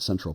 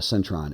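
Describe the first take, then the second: First: The word ends in an L sound. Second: The word ends in an N sound. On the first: This is the original English name. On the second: This is how local people say it.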